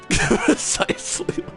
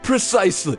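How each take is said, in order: First: It is said with an Irish accent. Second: It is said without an Irish accent. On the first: The speaker calls it right. "He's supposed to be Irish" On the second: The speaker calls it wrong. "Oh wait, no, no"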